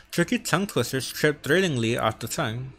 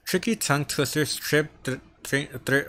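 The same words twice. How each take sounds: First: Said in the usual way. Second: Stumbling over the th sound, repeating it; stuttering. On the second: Real, not acted. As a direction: trip on "th-, th-," and stall.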